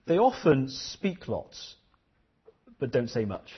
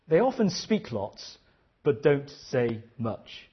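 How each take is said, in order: First: Slow, weighty teacher's line; a deliberate, measured saying; slow teacher quote. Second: Repeated even slower. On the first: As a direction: let each word land slowly. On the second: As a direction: stretch out "don't say much". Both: Retold or imitated. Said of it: "She said".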